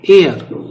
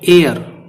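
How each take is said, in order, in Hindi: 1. यह शब्द स्वर ध्वनि से शुरू होता है। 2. यह शब्द स्वर ध्वनि से शुरू होता है।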